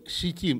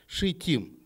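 First: The word begins with an s sound. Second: The word begins with a sh sound. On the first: The speaker calls it wrong. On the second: The speaker calls it right.

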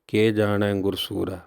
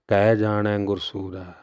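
First: The first word is said with the vowel 'e'. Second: The first word is said as 'kahi'. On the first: Asks what the brave Guru could know. The speaker calls it wrong. "ਇੱਕ ਲਾਮ ਲਾ ਕਰਕੇ ਅਰਥਾਂ ਦਾ ਜਿਹੜਾ ਸੀ ਉਹ ਅਨਰਥ ਹੋ ਗਿਆ" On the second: Either the Creator or the Guru knows. The speaker calls it right. "ਬਾਣੀ ਅੰਦਰ ਉਚਾਰਨ ਹੈ"

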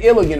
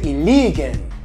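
First: It is said with an American accent. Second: It is said with a local Filipino accent. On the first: "That's how an American would say it" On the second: "But in Iligan, they say Iligan"

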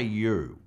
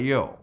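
First: The vowel is said with a fairly closed mouth. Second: The vowel is said with a wide open mouth. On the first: The speaker calls it wrong. "Don't say you" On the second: The speaker calls it right. "Say you. Open your mouth. Leave it open"

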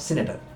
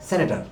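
First: The first vowel sounds like 'ee'. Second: The first vowel sounds like 'eh'. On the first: The speaker calls it wrong. "Not সিনেটার" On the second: The speaker calls it right. "বলা হয় সেনেটার"

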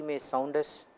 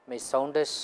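Both takes have the same delivery.

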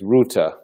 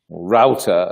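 First: It is said with a British pronunciation. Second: It is said with an American pronunciation.

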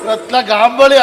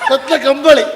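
First: The second word starts with a 'g' sound. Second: The second word starts with a 'k' sound. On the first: The speaker calls it wrong. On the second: The speaker calls it right.

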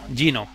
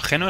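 First: The name is said with a posh English pronunciation. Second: The name is said with a Spanish pronunciation.

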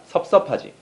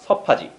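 First: The syllable 섭 is said twice at the start. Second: The syllable 섭 is said only once at the start. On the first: This is the standard form. "標準語は섭섭하지だよ" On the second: This is the casual, natural form. "自然な感じは섭하지"

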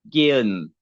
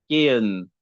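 The two takes are said the same way.

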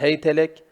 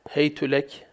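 First: The h and the t both take an a vowel. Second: The h takes an a vowel; the t takes u.

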